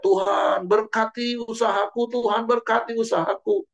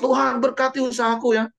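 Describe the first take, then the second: First: High, insistent pleading cry; hammed-up shouted prayer; mock crying out. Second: High, pushy demand; mock a stubborn believer who won't let go; hammed-up insistent plea; stubborn insisting. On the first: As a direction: imitate a believer shouting up to God. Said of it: "kita teriak". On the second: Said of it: "kita ngotot".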